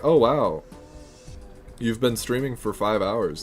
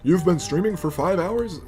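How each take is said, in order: First: It ends with a falling, statement-like tune. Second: It ends with a rising, question-like tune.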